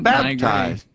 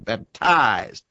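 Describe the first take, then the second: First: The stress is on the first syllable. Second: The stress is on the second syllable.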